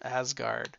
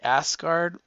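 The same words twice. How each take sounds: First: The middle consonant is a Z sound. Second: The middle consonant is an S sound. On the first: "I sort of have a Z in there" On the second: "But I guess you could say Asgard"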